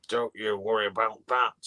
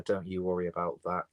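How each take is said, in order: First: Put-on northern English accent, a touch louder; mock northern accent impression; Jim Davidson in a northern accent. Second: Said in the usual way. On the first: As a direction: do a comedian's catchphrase in a northern accent. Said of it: "I did it in a northern accent". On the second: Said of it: "I don't know why I did it in a northern accent".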